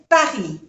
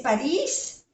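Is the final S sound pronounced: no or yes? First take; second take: no; yes. First: The final S sound is silent. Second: The final S sound is pronounced. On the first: This is the French way of saying it. "en francés se dice Paris" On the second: This is the Spanish way of saying it. "En español sí se dice París"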